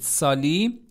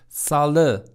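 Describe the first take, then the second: First: The word ends in an 'ee' vowel. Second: The word ends in an 'eh' vowel. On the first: The speaker calls it wrong. "سالی نیست" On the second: The speaker calls it right.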